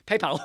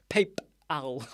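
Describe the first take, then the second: First: Giggly, stretched "PayPal" said pay-pal; laughing through "PayPal"; amused mock "PayPal". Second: Said in the usual way. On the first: Shown as a demonstration. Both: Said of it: "So you say PayPal".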